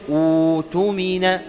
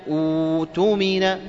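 No difference in how they are said.

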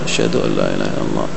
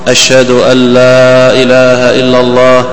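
First: The phrase is said in a low, quiet voice. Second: The phrase is said in a raised, loud voice. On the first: "ثم بصوت منخفض" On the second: "ثم يرفع صوته"

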